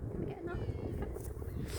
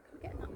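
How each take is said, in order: First: Slow, very high squeaky coaxing. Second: Said in the usual way. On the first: Real, not acted. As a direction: coax the squirrel in a squeak. Coaxing squirrel, repeated line.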